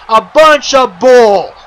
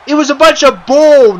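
First: "A bunch of bull" slowed right down and louder, each word leaned on; furious wrestler repeating his complaint for emphasis; slow angry repeat. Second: Loud, higher angry complaint; fuming wrestler telling the interviewer off. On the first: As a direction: drag out "bunch of bull" with disgust. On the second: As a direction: spit out "bunch of bull" in disgust. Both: Acted. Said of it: "madder than ever".

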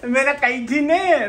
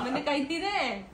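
First: High, slow, laughing whiny mimic; mimicking whine. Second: Said through laughter; amused told-you-so; laughing. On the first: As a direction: copy her in a teasing whine. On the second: Real, not acted.

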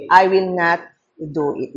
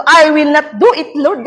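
First: Slow and softer, falling at the end; slow, soft declaration. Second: Higher, louder pleading refusal; retold refusal. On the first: Shown as a demonstration. Preacher quoting the third phrase to avoid. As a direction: say the refusal quietly and deliberately. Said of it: "Ano yung una?". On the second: Pastor recalling her fearful refusal to Lord. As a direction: beg Lord to spare her. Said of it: "At pangatlo".

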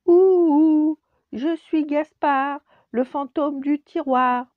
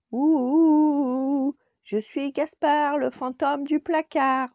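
First: Ululement très aigu, très fort et lent; fantôme qui ulule plus fort. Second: Ululement aigu et fort de fantôme; petit fantôme qui ulule. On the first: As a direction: pousse la voix pour faire peur. Second essai de Gaspard. (Gaspard recommence son chant, plus fort et lent) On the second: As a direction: chante comme un petit hibou. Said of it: "on dirait un petit hibou". (Gaspard ulule devant le professeur, aigu et fort) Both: Acted.

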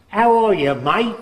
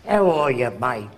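First: Put-on higher, louder "How are you, mate?" in a light Australian accent; a cheery Australian greeting, barely voiced. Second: A lightly voiced Aussie greeting, dropped pitch; Australian accent. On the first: Old man imitating an Australian greeting, light Australian accent. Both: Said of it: "that guy comes from Australia".

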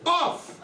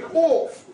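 First: Said in the usual way. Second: "off" said as a drawn-out, posh "orf"; posh pronunciation. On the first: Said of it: "but everybody knows it". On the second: Shown as a demonstration. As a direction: stretch "off" into a toff's "orf". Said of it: "so bloody posh they can barely speak English".

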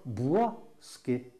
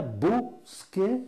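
First: "boisquet" with a "bwa" first syllable; wrong word. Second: "bosquet" said "bos-kay", with a higher pitch; right word. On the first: Teacher warns viewers off the mistaken "boisquet". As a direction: say "boisquet" as "bwas-kay", the wrong form. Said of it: "on ne dit pas". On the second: Teacher corrects viewers, high stressed "bosquet". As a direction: lift and stress "bosquet" with a plain "o". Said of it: "On dit bien". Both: Shown as a demonstration.

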